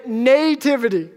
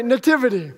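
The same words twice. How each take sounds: First: "nativity" said NAY-tivity, first syllable stressed; long NAY in nativity. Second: "nativity" said nuh-TIV-ity, second syllable stressed; later accent in nativity. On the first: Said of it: "I put the accent on the nay". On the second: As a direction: reduce the first vowel of "nativity", stress TIV. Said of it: "She puts the accent later". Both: Shown as a demonstration.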